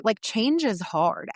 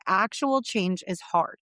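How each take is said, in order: First: Said in the usual way. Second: Actual leaned on, slow; stress on Actual. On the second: Shown as a demonstration. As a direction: hit the word Actual first.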